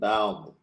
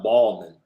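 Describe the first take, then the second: First: The first vowel sounds like in 'cow'. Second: The first vowel sounds like in 'ball'. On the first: The speaker calls it right. "Make sure it's Bow. As in taking a bow" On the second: The speaker calls it wrong. "Not Ballman"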